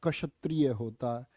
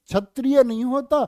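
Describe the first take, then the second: First: क्षत्रिय said with a clear क्ष; correct pronunciation. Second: क्षत्रिय said the wrong way, as a mistake; loud mocking of the wrong क्षत्रिय; wrong pronunciation. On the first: Teacher showing students the correct क्षत्रिय, quiet. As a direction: model the right क्षत्रिय, quietly. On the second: Teacher mocking a student's wrong क्षत्रिय, loud. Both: Shown as a demonstration.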